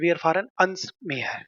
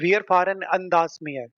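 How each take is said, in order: First: The preposition and article merge into one word. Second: The preposition and article are said separately. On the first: The speaker calls it right. "इससे अच्छा है शॉर्ट में कर दो" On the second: The speaker calls it wrong. "थोड़ा बोलने में अजीब लगता है"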